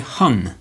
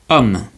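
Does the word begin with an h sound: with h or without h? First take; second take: with h; without h. First: The word begins with an audible h sound. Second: The word begins directly with the vowel. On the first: The speaker calls it wrong. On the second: The speaker calls it right.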